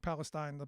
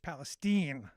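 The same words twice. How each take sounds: First: It sounds like the Middle East region's name. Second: It sounds unlike the Middle East region's name. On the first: The speaker calls it wrong. "can't be like you know like Palestine, like the Palestinians" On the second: The speaker calls it right. "No, it's Palestine, and that that was the correction"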